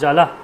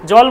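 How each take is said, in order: First: The word ends with a pronounced final a vowel. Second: The word ends on the consonant, no final vowel. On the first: This is the proper Sanskrit pronunciation. The speaker calls it right. "সংস্কৃতে জল বলা যাবে না, জলা" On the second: This is the everyday Bengali pronunciation. The speaker calls it wrong. "জলকে জল বলছি"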